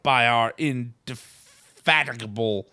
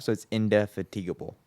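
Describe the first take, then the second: First: Indefatigable said in-de-FAT-ig-able; mispronounced indefatigable. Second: Indefatigable said in-de-FAT-ig-able, clearly; correct pronunciation. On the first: Acted. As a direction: stumble on indefatigable. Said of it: "I don't think that's how you say that word". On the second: Shown as a demonstration. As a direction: say indefatigable carefully.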